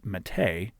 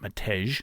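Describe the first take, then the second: First: The name is said in its native pronunciation. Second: The name is said the way it is spelled. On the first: The speaker calls it right. "Matej is actually pronounced Mate" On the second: The speaker calls it wrong. "I believe I pronounced his name Matej. I probably was wrong"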